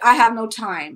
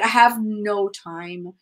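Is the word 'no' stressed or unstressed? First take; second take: unstressed; stressed. First: The word 'no' is not emphasized. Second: The word 'no' is strongly emphasized. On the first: "you may say like" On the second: "but it's usually like"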